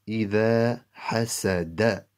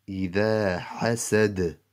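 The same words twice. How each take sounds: First: إذا حسد with "da" sounded at the end of حسد; final vowel pronounced. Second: إذا حسد ending "hasad", no vowel after the d; stopped on d. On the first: Teacher reading the next example unstopped, final vowel pronounced. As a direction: end حسد on an open "a", hasada. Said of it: "After the dal zabar da". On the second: Teacher reading the example with a jazm, stopped on d. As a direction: close حسد firmly on its d. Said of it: "we turn that into a jazm". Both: Shown as a demonstration.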